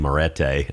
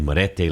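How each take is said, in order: First: The name is said with a South Georgia accent. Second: The name is said with Spanish-like vowels.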